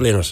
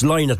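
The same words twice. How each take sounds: First: The name sounds like the bird 'linnet'. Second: The name does not sound like 'linnet'. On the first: The speaker calls it wrong. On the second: The speaker calls it right. "It's Lynott"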